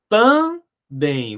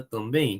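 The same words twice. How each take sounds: First: Também split as tam, pause, bém; higher, deliberate tam... bém; separated syllables. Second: Said in the usual way. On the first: Shown as a demonstration. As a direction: say "também" in two drawn-out syllables. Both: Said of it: "Vamos separar a palavra também?".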